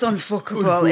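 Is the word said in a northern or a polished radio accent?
northern. It is said in a northern English accent. It sounds more unpalatable. "when I say it in my northern accent, it makes it much more unpalatable"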